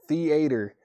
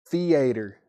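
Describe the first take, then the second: No difference in how they are said.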